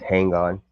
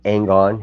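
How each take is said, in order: First: The h at the start is pronounced. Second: The h at the start is dropped. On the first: "He he he says with the H" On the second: "He doesn't say"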